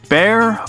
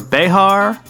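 First: The name is said as one syllable, like 'bear'. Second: The name is said as two syllables, 'beh-har'. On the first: "can be pronounced as the Siege of Bear" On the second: "or Behar"

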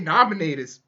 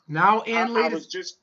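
First: The words are run together into one word. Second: Each word is said separately and fully.

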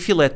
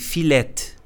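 First: It is said in standard Portuguese. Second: It is said the way Madeirans say it.

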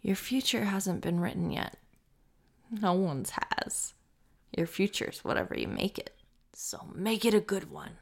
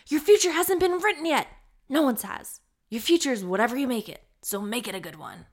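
First: It is said at a slower pace. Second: It is said at a quicker pace.

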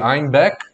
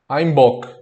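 First: The second syllable has an e vowel: beck. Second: The second syllable has an o vowel: bock. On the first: This is the town's standard name. "Em vez de Einbeck" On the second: This is how the Bavarians, with their accent, said it. "tem um sotaque que aí eles falavam como? Eles falavam Einbock"

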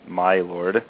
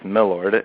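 First: The first word is said fully as 'my'. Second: The first word is reduced, run into 'lord'. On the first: "which is a shortened version of my Lord" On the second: "It's my Lord, M-I-L-O-R-D"

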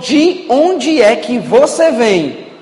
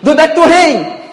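First: It is said slowly and clearly. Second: It is said very fast, Fortaleza style.

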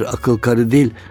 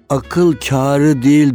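First: The first vowel of kari is short. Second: The first vowel of kari is long. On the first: The speaker calls it wrong. "Üstünde aksan görmeyince karı okuyor hepsini" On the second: The speaker calls it right. "akıl kârı değil diyormuş"

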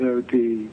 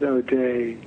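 First: The name ends with a 'dee' sound. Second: The name ends with a 'day' sound. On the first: This is how the name is said in Ireland. "if you go to Ireland, they pronounce it O.D" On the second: This is how many Americans say the name. "A lot of Americans do pronounce it O'Day"

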